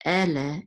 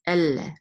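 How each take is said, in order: First: Said in the usual way. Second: "elle" with a long doubled L; "elle" pronounced el-leh, L held. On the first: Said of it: "instead of ele". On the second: Shown as a demonstration. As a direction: linger on the L in "elle". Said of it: "it's elle".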